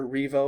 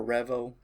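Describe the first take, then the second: First: Revo said one of two ways; first pronunciation. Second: Revo said the other way; alternative pronunciation. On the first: Reviewer naming the Aspire tank, first pronunciation of Revo. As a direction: give the first variant of Revo. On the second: Reviewer offering another name reading, alternative pronunciation of Revo. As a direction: give the second variant of Revo. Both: Shown as a demonstration. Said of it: "however you want to say it".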